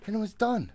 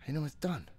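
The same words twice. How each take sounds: First: Much higher and louder, yelling it out; frustrated yell. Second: Said in the usual way. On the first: Real, not acted. Player yelling at the game in exasperation. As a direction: blow up at the game.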